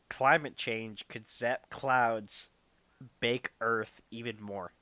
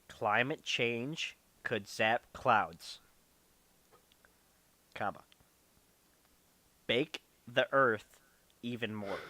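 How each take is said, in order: First: It is read at a normal speed. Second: It is read very slowly.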